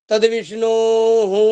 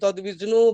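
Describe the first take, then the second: First: The word ends with an added 'hu' sound. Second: The word ends with no added 'hu' sound. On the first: The speaker calls it right. "হস্যকারের পরে বিসর্গ আছে বলে হু উচ্চারণ হলো" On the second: The speaker calls it wrong. "এরকম করে আমরা পাঠ করে থাকি সাধারণ যারা বেদ জানেন না"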